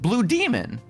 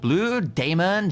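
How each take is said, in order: First: The name is said with an English pronunciation. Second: The name is said with a Spanish-style pronunciation. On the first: "the most English one" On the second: "she was trying to do like a Spanish accent or like a Mexican accent"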